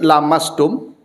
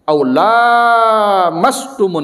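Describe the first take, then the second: First: The first vowel is said short. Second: The first vowel is said long. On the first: Any skin contact between man and woman breaks ablution. "Sebagian membaca pendek" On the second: Only touch involving desire breaks ablution. "maka dibaca panjang"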